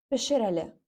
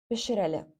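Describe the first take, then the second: Both takes have the same delivery.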